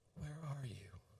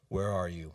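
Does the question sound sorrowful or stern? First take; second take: sorrowful; stern. First: It sounds tender and tearful. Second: It sounds stern and accusing. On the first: The asker grieves and longs for the other's return. The speaker calls it right. "envision my face with tears streaming down my cheeks" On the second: The asker is angry and demanding an answer. The speaker calls it wrong. "this is the tone by which we read them"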